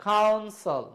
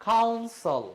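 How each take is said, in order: No difference in how they are said.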